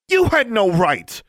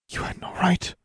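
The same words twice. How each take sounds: First: Loud, high-pitched, drawn-out yell; furious shout. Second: Hushed, high and whispery; stunned reproach. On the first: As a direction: hurl it as an outraged accusation. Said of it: "Alexandra shouted". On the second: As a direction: barely get the words out in shock. Mother reacts to being exposed. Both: A narrator's reading.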